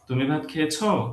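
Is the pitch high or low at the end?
high. The pitch goes high at the end. It asks whether the person has eaten. "Pitch high হওয়ার কারণে that becomes a question"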